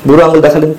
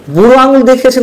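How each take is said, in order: First: Said in the usual way. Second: Sarcastic repeat. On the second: Real, not acted. Commentator mocking the chief adviser to viewers, sarcastic and high. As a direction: pitch jumps much higher, with আঙুল hit hard and mocking.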